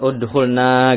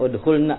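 First: The final vowel is drawn out long. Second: The final vowel is kept short. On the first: One man is told to enter to us. The speaker calls it wrong. "jangan udhulna gitu, salah itu" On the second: Three or more women are told to enter. The speaker calls it right. "tapi pendek udhulna"

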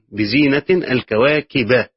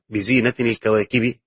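First: Zina ends in -in; kawakib ends in -a. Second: Zina ends in -in; kawakib ends in -i. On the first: God adorned the stars and made them beautiful. "قراءة نصب الكواكب يعني مع التنوين أيضا" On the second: The stars themselves are the adornment. "قراءة تنوين زينة مع جر الكواكب ... لو هتوصل هتبين الكسرة"

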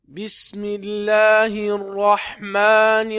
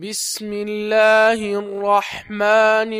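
No difference in how they are said.

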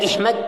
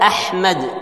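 First: The word begins with an i vowel. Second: The word begins with an a vowel. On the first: The speaker calls it wrong. "Tada Ihmad" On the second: The speaker calls it right. "Ada Ahmad"

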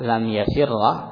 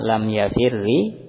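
First: The final consonant is followed by an 'a' vowel. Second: The final consonant is followed by an 'i' vowel. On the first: "Bisa di fathah" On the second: "lam ya'adzi kasroh"

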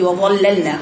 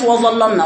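First: The opening waw is light and thin. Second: The opening waw is heavy and thick. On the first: The speaker calls it right. "ورقيق" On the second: The speaker calls it wrong. "ما تقوليش وظللنا وا وا وا"

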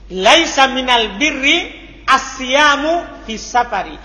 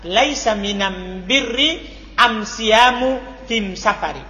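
First: The article is pronounced with an l sound. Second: The article is pronounced with an m sound.

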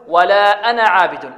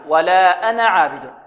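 The two takes are said the same way.

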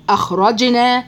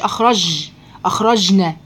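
First: The jeem is said as a j sound. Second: The jeem is said as a hard g. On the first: The speaker calls it right. "المفروض الجيم العربية الفصحى أج" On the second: The speaker calls it wrong. "ما تقوليش أخرجنا. ليس في القرآن جي أبدا"

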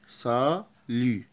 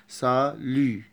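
No difference in how they are said.

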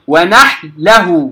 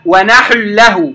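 First: The ḥā is silent and runs into the lām. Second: The ḥā carries a vowel before the lām. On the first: The speaker calls it right. "الحاء ساكنة أنتقل من التسكين الحاء إلى اللام مباشرة" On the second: The speaker calls it wrong. "لا أقول ونحل ونحله، خطأ"

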